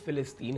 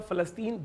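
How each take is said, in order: First: The word begins with the syllable fi. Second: The word begins with the syllable fa. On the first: "लेकिन असलन ये फ़िलिस्तीन है" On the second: "आपने कहा फ़लस्तीन, बिल्कुल सही है"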